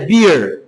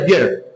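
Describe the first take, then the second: First: The vowel is said long and stretched. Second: The vowel is said short and clipped. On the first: The speaker calls it right. "o correto é beer" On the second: The speaker calls it wrong. "se fosse só um E, seria beer"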